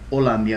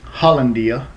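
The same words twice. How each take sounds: First: The name is said with a Spanish pronunciation. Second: The name is said with an English pronunciation. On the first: This is how people in Miami say it. "we call it by the Spanish pronunciation" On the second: This is how outsiders might say it. "you guys might pronounce it as"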